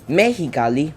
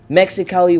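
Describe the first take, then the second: First: The x is said as an h sound. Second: The x is said as a ks sound.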